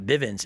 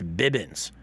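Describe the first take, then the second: First: The middle consonant is a v sound. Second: The middle consonant is a b sound. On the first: The speaker calls it wrong. "his last name is not Bivens" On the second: The speaker calls it right. "it's Bibbins"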